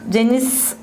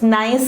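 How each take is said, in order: First: The G is sounded, with two syllables. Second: The G is silent, one syllable like nice. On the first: The speaker calls it wrong. "Don't read it as Genis" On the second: The speaker calls it right. "It is nice actually"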